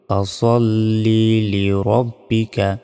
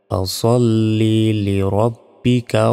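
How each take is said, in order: First: The s sound is heavy and emphatic. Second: The same.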